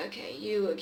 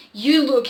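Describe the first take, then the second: First: Said in the usual way. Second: Loud gruff order; gruff command. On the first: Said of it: "he commanded gruffly". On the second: Acted. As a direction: bark it as a command. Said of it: "he commanded gruff".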